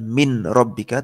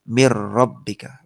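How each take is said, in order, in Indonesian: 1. Bunyi n dibaca sebelum r. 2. Bunyi n melebur sepenuhnya menjadi r yang ganda. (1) "Bacanya bukan min rabbika" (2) "tapi mirrabbika. Langsung masuk ke ro-nya"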